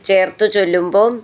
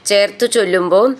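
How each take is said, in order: No difference in how they are said.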